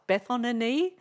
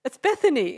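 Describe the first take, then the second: First: "Bethany" as "Beth-on-a-knee?", higher and rising; questioning echo. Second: "Bethany" said properly as "BETH-a-nee", higher and louder; corrected pronunciation. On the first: Rapper querying what he heard, "Bethany" as "Beth-on-a-knee?". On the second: Correcting the rapper, "Bethany" said clearly and insistently. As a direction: insist on "Bethany" in three clean syllables. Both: Retold or imitated. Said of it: "No, you said something else".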